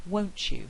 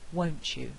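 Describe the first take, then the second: First: The t and y merge into ch. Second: The t and y merge into ch.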